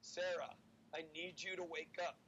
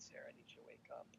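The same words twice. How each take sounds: First: It is said in a loud voice. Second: It is said gently and softly.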